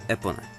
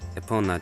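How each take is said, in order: First: The stress is on the first syllable. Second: The stress is not on the first syllable. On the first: "the first sound may get at least part or all of the accenting" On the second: "there's just a possibility though it could be epona too"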